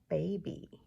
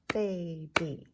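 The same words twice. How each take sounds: First: Said in the usual way. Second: Put-on "Baby" split into two beats, ba-by; "Baby" as two evenly stressed, separate syllables; clapped-out syllables. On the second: Shown as a demonstration. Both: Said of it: "Two syllables for baby".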